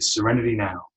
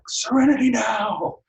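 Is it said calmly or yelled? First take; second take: calmly; yelled. First: It is said calmly and quietly. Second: It is yelled loudly and angrily.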